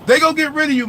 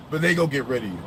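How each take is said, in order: First: Repeated much higher and louder; emphatic warning. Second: Said in the usual way. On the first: Real, not acted. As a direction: drive the warning home, rising up.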